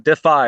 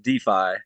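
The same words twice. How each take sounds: First: DeFi said "dih-FYE", short first vowel; new-term pronunciation. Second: DeFi said "DEE-fye", long first vowel; usual-term pronunciation. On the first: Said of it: "they're saying DeFi instead of DeFi". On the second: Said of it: "instead of DeFi". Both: Shown as a demonstration.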